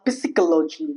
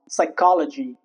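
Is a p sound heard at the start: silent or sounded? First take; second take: sounded; silent. First: A p sound is heard at the start. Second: No p sound is heard at the start. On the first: The speaker calls it wrong. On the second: The speaker calls it right.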